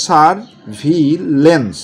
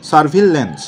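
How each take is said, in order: First: surveillance stretched out very slowly; slow spelling-drill surveillance; slow syllable by syllable. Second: Said in the usual way. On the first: Shown as a demonstration. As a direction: read surveillance slowly, each syllable clear. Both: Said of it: "এরকম করে আপনি পড়বেন।".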